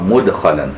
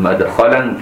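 First: The first vowel is a rounded u sound. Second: The first vowel is an open a sound. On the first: It names the manner of entering. "وباقي القراء مدخلا" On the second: It names the place of entering. "شوف بفتح الميم"

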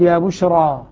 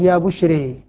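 First: The final vowel is a fully open a. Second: The final vowel is bent toward e. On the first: "عاصم يقول يا بشرى" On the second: "حمزة والكسائي يقول يا بشري"

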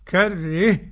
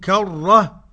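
First: The vowel before the final h tilts toward e. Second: The vowel before the final h stays open. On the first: Tilting applies before all letters except alif. "على المذهب الثاني" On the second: The imala conditions are not met, so there is no tilting. "على المذهب الأول"

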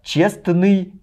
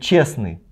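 First: The t sound in the middle is pronounced. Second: The t sound in the middle is dropped. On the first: The speaker calls it right. "каждую букву проговаривают" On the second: The speaker calls it wrong. "Буква Т исчезла"

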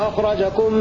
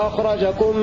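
No difference in how they are said.

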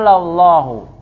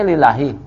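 First: It begins with 'la' and ends with 'hu'. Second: It begins with 'li' and ends with 'hi'. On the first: The speaker calls it right. "Dibacanya lallahu" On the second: The speaker calls it wrong. "memang antum membacanya lillahi"

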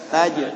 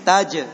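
First: The final consonant is held without audible air. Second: The final consonant is released with audible air. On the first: The speaker calls it right. "tahan anginnya" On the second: The speaker calls it wrong. "kalau taj ada angin"

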